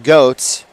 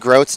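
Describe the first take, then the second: First: It is said without an r after the g. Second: It is said with an r after the g. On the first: The speaker calls it wrong. "apologies for pronouncing it goat" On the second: The speaker calls it right. "the correct version is Grote"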